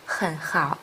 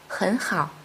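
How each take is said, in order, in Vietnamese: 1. Âm tiết đầu có thanh ba, giọng thấp xuống. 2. Âm tiết đầu có thanh hai, giọng đi lên. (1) "Khi hai thanh ba đi liền nhau" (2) "đọc thành"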